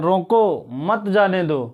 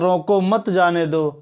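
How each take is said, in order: First: The pause comes right after 'रोको'. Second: The pause comes right after 'मत'.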